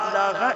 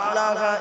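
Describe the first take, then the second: The two takes are said the same way.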